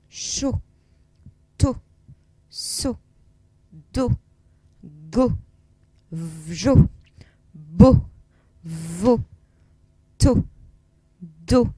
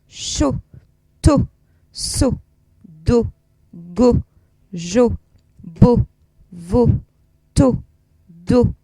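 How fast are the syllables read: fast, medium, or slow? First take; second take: medium; fast. First: The syllables are read a little faster. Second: The syllables are read at the fastest pace. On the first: "un tout petit peu plus vite" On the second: "Un tout petit peu plus vite encore"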